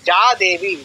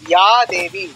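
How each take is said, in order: First: The first word begins with a 'j' sound. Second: The first word begins with a 'y' sound. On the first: It is read the way Bengali is read. The speaker calls it wrong. "বাংলায় বলি" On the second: It is read the way Sanskrit is read. The speaker calls it right. "সংস্কৃত ভাষায় বলবো"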